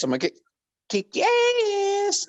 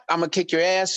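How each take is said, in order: First: ASS squealed very high and held long; drawn-out high ASS. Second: Said in the usual way. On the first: Shown as a demonstration. Showing the hook against the normal way, ASS squealed high and long. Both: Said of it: "You know, not, not".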